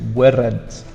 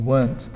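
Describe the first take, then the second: First: The word is split into two syllables. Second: The word is said as one syllable. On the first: The speaker calls it wrong. "Some people think it's two" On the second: The speaker calls it right. "it's one"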